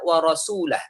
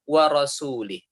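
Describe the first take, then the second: First: The vowel after the L is 'a'. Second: The vowel after the L is 'i'. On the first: God and the Messenger both disown the idolaters. The speaker calls it right. "Padahal yang benar adalah" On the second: God disowns both the idolaters and the Messenger. The speaker calls it wrong. "Begitulah dia baca"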